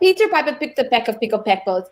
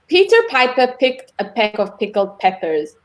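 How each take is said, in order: First: It is said fast. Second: It is said slowly.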